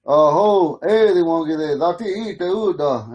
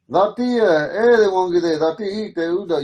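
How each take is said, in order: First: "Aho, eh, they won't get it" said as the men say it, falling on "eh"; man's greeting. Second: "Dati" lifted on a rise, then "eh, they won't get it" falling; women's greeting. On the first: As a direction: say "Aho" the men's way. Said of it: "a greeting you could use". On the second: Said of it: "And then you women say". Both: Shown as a demonstration.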